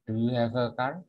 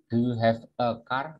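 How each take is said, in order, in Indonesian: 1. Kata-katanya menyambung dengan lancar. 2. Kata-katanya diucapkan terpisah.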